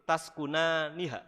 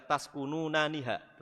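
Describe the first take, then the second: First: The syllable 'nu' is said once. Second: The syllable 'nu' is said twice. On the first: The speaker calls it right. "tetapi yang betul taskunaniha" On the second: The speaker calls it wrong. "Kemarin saya baca taskununaniha"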